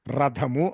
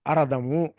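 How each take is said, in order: First: Said in the usual way. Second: అరథము with an added leading vowel; mispronounced రథము. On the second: Retold or imitated. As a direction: put an "a" before the r in అరథము. (రథము పలకలేక ముందు 'అ' చేర్చి "అరథము") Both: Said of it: "పలకటం చేతకాక".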